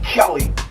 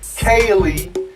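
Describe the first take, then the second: First: The first vowel is short, like Kelly. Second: The first vowel is long, like Kaylee. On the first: The speaker calls it wrong. "not Kelly" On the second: The speaker calls it right.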